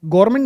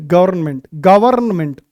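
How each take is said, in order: First: "गवर्नमेंट" run together as gor-ment; common mispronunciation. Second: "गवर्नमेंट" with every part sounded, ga-varn-ment; corrected pronunciation. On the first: Teacher showing what to avoid in "गवर्नमेंट", mispronounced as gor-ment. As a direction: say "गवर्नमेंट" with the middle sounds swallowed, gor-ment. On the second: Teacher correcting students on "गवर्नमेंट", pronounced fully as ga-varn-ment. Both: Shown as a demonstration. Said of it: "गवर्नमेंट नहीं".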